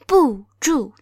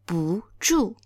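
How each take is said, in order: First: The first syllable has a sharply falling tone. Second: The first syllable has a rising tone. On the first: The speaker calls it wrong. "instead of saying 不住" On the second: The speaker calls it right. "now it becomes 不住"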